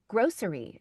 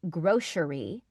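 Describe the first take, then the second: First: The middle consonant is an 's' sound. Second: The middle consonant is a 'sh' sound. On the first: The speaker calls it right. "It's it's grocery" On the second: The speaker calls it wrong. "I used to say grocery with like a sh sh, but it's not"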